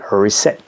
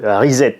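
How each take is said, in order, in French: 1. Le mot se prononce à l'anglaise. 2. Le mot se prononce à la française. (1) "pour la bonne prononciation en anglais" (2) "avec un, un R, un I, un Z, un E et deux T E à la fin"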